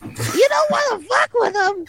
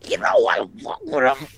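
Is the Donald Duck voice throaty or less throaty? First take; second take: less throaty; throaty. First: A less throaty Donald Duck voice. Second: A more throaty Donald Duck voice.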